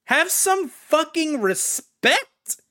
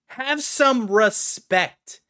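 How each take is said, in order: First: High, loud, slow demand; outraged plea. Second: Firm plea. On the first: Fan scolding the game makers, loud drawn-out outrage. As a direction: drag each word out in outrage. Ranting about Lord of Rings. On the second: Fan repeating the scolding to developers, slower firmer plea. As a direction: drag it out but come down a step. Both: Real, not acted.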